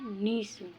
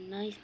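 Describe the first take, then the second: First: The vowel sounds like 'ee'. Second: The vowel sounds like 'ai'. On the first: The speaker calls it right. "नहीं नीस" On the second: The speaker calls it wrong. "नाइस नहीं"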